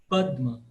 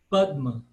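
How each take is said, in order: No difference in how they are said.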